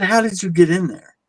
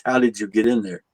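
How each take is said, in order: First: Higher, pressing disbelief; incredulous question. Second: Said in the usual way. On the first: Retold or imitated. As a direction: push him for an answer, baffled. Arguing with coworker about room.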